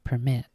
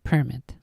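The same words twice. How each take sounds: First: The stress is on the second syllable. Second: The stress is on the first syllable. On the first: This is a regional way of saying it. "they put the emphasis on the, the mit" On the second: This is how it is said in New York. "in New York, we always said permit"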